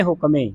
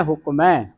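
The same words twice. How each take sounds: First: ਹੁਕਮੇ ending in a close "may"; single-lanv misreading. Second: ਹੁਕਮ ਹੈ as one word "hukmai", open ae; double-lanv ending. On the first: Teacher shows the habitual misreading, ਹੁਕਮੇ with narrow e. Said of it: "ਇੱਕ ਲਾਂ ਲਾ ਕੇ ਬੋਲਦੇ ਹਾਂ". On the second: Teacher gives the class the pronunciation, ਹੁਕਮ ਹੈ ending open ai. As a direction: open the final vowel of ਹੁਕਮ ਹੈ wide. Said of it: "ਦਲਾਵਾਂ ਦੇ ਨਾਲ". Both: Shown as a demonstration.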